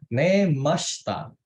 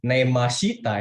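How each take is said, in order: First: The vowel after 'sh' is nearly silent. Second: The vowel after 'sh' is clearly voiced. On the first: The speaker calls it right. "Si-nya itu ditipisin" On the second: The speaker calls it wrong. "bukan nemashita"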